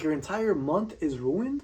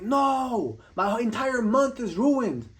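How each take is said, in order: First: Slow, softer questioning echo with rising end; incredulous echo. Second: Higher-pitched, drawn-out mock lament; mock despair. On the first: Retold or imitated. Speaker questioning the soccer fan's overreaction, incredulous. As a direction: repeat it back slowly in disbelief. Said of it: "I'm like". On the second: Soccer fan lamenting the team's loss, mock despair. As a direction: wail it slowly, mocking an overdramatic sports fan. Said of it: "And they'll be like".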